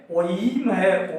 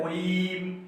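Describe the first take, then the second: First: ओईम said slowly as two sounds, ओ then ई; ओईम pronounced with a separate ई; wrong reading. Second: ओईम repeated softly with ओ and ई apart; softer second ओईम; quiet repeat. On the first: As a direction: spell out ओईम the mistaken way, slowly. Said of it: "बच्चे इसको ई समझ लेते हैं और बोलते हैं". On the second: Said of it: "ई नहीं है". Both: Shown as a demonstration.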